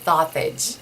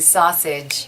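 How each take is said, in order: First: The s sounds are said as th. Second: The s sounds are said clearly as s. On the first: "I would say it with a T H" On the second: "instead of saying sausage"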